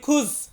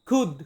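First: The word ends in a 'z' sound. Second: The word ends in a 'd' sound. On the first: This is a common variant many people use. The speaker calls it wrong. "অনেকে আমরা বলি খুজ" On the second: This is the correct pronunciation. The speaker calls it right. "সঠিক উচ্চারণটা হবে কি? খুদ"

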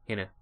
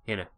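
The two takes are said the same way.

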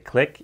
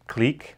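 First: It is said like the word click. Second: It is said with a long ee vowel. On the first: The speaker calls it wrong. "Don't say click" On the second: The speaker calls it right. "it is pronounced clique"

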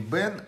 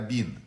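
First: The word is said with an 'e' vowel. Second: The word is said with an 'i' vowel. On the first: The speaker calls it wrong. "не бен" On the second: The speaker calls it right. "а бин"

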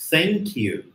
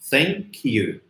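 The two takes are said the same way.

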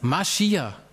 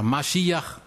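First: The word is pronounced in a casual, simplified way. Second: The word is pronounced carefully, in its original form.

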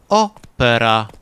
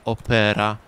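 First: The stress is on the first syllable. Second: The stress is on the second syllable. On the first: "ten akcent na trzecią sylabę, czyli proparoksytoniczny" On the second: "akcent paroksytoniczny, czyli na drugą sylabę od końca"

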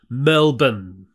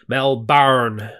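First: It is said with a relaxed Australian reduction. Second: It is said the way overseas speakers say it.

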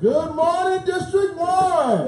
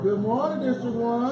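First: It is said with more energy. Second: It is said with little energy.

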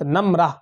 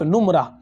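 First: The first vowel is a short 'a'. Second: The first vowel is a short 'u'. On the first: It means numbers. "नून पर जबर मीम पर सुकून यानी जज़म के साथ" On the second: It means stains or spots. "नून के ऊपर पेश के साथ और मीम के सुकून के साथ"

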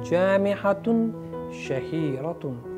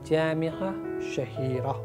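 First: The words end with an added -un sound. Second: The words end without an added -un sound. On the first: "You need not say Tanmeen with Tuntun" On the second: "You need not say Tanmeen with Tuntun"

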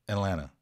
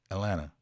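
First: The T sounds are dropped in fast speech. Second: The same.

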